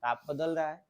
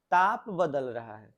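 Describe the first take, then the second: First: Said in the usual way. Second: ताप stressed louder, said slowly and deliberately; slow emphatic stress. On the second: Shown as a demonstration. Teacher drives the answer home to students, slow and emphatic. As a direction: lean hard on ताप and slow the whole phrase down. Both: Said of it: "teacher repeats the answer".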